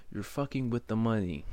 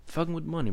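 First: Said in the usual way. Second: Fucking punched higher and louder on the repeat; emphatic repeat. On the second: Real, not acted. Ranting at viewers, repeating the point with higher, louder emphasis. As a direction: hammer Fucking with money harder the second time. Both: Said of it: "I'm gonna say it again".

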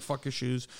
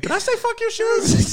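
First: Offhand, dismissive brush-off; lightly acted defiance, not shouted; dismissive retort. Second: Very high, loud, slow squeak; hammed-up squeal of sudden innocence; panicked mock backpedal. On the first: Retelling a bar argument to podcast hosts, dismissive. Telling off the shoe owner. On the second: Retelling going back to the gunman with wipes, frantically apologetic.

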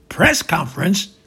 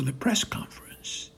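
First: Loud, alarmed question; panicking. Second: Said in the usual way. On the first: Acted. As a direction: blurt it back in alarm, voice rising. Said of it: "Trump, panicking".

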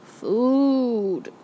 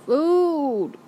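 First: Food groaned out slow and drawn, a dazed moan; barely awake, moaning for food; weak groan. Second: Food moaned higher and louder, drawn out; dazed satyr moaning for food. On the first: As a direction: mumble it half-conscious, groaning. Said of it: "Then he groaned". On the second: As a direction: groan it again, a bit stronger. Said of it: "Grover moaned, a little louder". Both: A narrator's reading.

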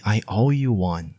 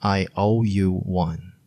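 First: Said in the usual way. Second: I owe you one said slowly with owe leaning; slow careful repeat. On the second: Shown as a demonstration. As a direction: stretch it out for learners. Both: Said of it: "you can say".

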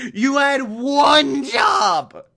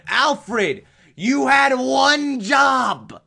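First: High, loud and slow exasperated shout; slow, loud, high-pitched scolding; mock furious yell again. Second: You had one job, bellowed; mock furious yell. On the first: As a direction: bellow at the useless butler. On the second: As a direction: shout it high and loud, drawn out slow. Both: Yelling at Alfred over failure.

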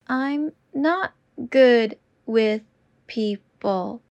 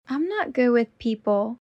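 First: Slow and deliberate. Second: Said in the usual way. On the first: Shown as a demonstration. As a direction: stretch each word out. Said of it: "repetition drill, slowed take". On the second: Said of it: "repetition drill, normal take".

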